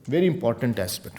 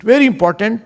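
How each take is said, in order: First: Said in the usual way. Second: Very punched louder and higher; stress on Very. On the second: Shown as a demonstration. Preacher urging listeners, stress on Very. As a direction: hit Very hard and lift it. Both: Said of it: "Please get this point".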